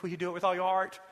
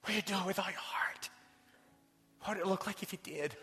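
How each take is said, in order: First: Louder and higher coach's challenge; coach's rallying call. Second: Hushed, intimate whisper of the question; whispered challenge. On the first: Retold or imitated. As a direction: call it out like a coach to his boys. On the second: Real, not acted. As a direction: whisper it straight to each listener. Repeats coach's question to congregation.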